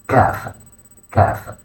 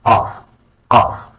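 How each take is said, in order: First: KAF with an ordinary K as in kite; regular K. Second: QAF with the K made at the back of the throat; deep back K. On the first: Teacher showing learners the letter, KAF with regular K. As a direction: keep the K of KAF forward and plain. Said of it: "a regular K sound as in kite". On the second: Teacher showing learners the letter, QAF with deep K. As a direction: pull the Q of QAF far back, dark vowel. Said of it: "a deep K sound made from the back of the throat". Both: Shown as a demonstration.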